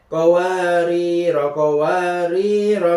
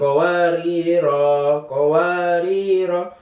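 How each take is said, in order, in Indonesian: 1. Vokal akhir dari kata pertama pendek. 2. Vokal akhir dari kata pertama panjang. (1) "tapi dibaca pendek" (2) "Bukan qawarira qawarira"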